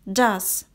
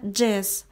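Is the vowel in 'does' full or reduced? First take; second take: full; reduced. First: The word is stressed with a full vowel. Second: The word is unstressed with a weak vowel. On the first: "у нас под ударением, мы произносим звук а" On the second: "имеет произношение does, так как он не ударный в предложении"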